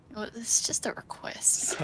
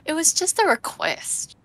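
First: Soft unvoiced whisper, slower. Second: Said in the usual way. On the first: Shown as a demonstration. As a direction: breathe it out as a whisper. Whispered repeat of the line.

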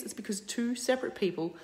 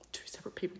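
First: Said in the usual way. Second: Whispering the repeat; whispered. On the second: Real, not acted. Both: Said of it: "repeated emphasis".

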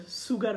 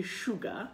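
First: "সুগার" as SU-gar, with s and r; wrong pronunciation. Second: "সুগা" as SHU-ga; sh at the start of "সুগা", no r; correct pronunciation. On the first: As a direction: hiss the s, sound the r in "সুগার". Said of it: "এটা সুগার হবে না". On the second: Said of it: "উচ্চারণটা হবে সুগা". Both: Shown as a demonstration.

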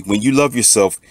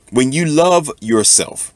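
First: Said in the usual way. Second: "love" drawn out high and slow; stress on love. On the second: Real, not acted. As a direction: lean hard on "love", slowly. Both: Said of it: "repeats phrase with emphasis".

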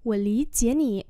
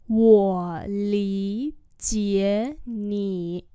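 First: Fast natural Mandarin line; quick model. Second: Slow drill. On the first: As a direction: rattle it off at speed. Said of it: "Tớ hiểu cậu mà". (đọc nhanh) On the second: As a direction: draw out every word slowly. (đọc chậm cho học viên) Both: Shown as a demonstration.

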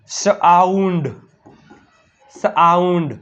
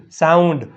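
First: સાઉન્ડ as a slow "s-aaund", S apart from AU; split sounding-out. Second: સાઉન્ડ joined up and shorter; blended word. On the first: Teacher showing pupils the AU sound, સાઉન્ડ slowly split as "s-aaund". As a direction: break સાઉન્ડ after S and lengthen the AU. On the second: Teacher blending for pupils, સાઉન્ડ as one joined word. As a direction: run S straight into AU in સાઉન્ડ. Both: Shown as a demonstration. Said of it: "શું થાય?".

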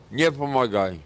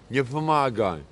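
Both takes have the same delivery.

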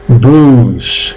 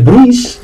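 First: "bruise" as long "brus", no I; slow "bruise" on one pure u; silent I. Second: "bruise" as "bru-is", the I heard; wrong, I sounded. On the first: Teacher gives the right form, "bruise" with silent I. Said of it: "se pronuncia bruise". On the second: Teacher shows the error, "bruise" with sounded I. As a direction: mistaken "bruise" with a "ui" glide. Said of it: "no es bruise". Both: Shown as a demonstration.

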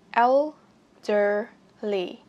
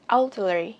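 First: Put-on "Elderly" very slowly in separate syllables; el, der, ly, each stretched with a gap; slow syllable breakdown. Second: Said in the usual way. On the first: Shown as a demonstration. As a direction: break "Elderly" apart for learners. Word broken into slow syllables.

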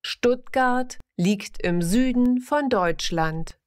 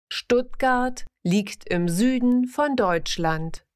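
The two takes are said the same way.

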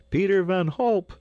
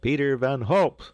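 First: Very high, loud cheer of a name; crowd's shout. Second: Loud, raised announcement of the winner; higher, louder proclaiming call; crier's shout. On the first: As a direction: roar the winner's name like a crowd. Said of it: "shouted a hundred voices". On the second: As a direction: shout the name out like a town crier. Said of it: "shouted the crier". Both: A narrator's reading.

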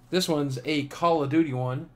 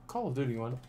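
First: Said in the usual way. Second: Quiet repeat. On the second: Real, not acted. Vlogger repeating a postcard's theme to himself, quiet repeat. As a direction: repeat it softly, as an aside. Quieter echo of own announcement.

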